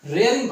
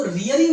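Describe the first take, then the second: First: रेयरिंग with an "ay" in the first syllable; correct "ray" vowel. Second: रियरिंग with an "ee" in the first syllable; mispronounced "ree" vowel. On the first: Teacher gives students the reading, रेयरिंग said with "ray". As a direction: say रेयरिंग, opening "ray-" rather than "ree-". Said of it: "रेयरिंग पढ़ेंगे". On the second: Teacher warns against a misreading, रियरिंग said with "ree". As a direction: say रियरिंग, opening "ree-" rather than "ray-". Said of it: "इसको रियरिंग नहीं पढ़ेंगे". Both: Shown as a demonstration.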